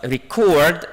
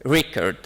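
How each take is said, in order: First: "record" stressed on the second syllable, reCORD, said slowly; reCORD with a rising pitch on CORD; verb stress. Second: "record" stressed on the first syllable, REcord; REcord with a falling pitch after RE; noun stress. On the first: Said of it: "the second syllable is the stressed syllable". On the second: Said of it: "stress falls on the first, uh, syllable". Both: Shown as a demonstration.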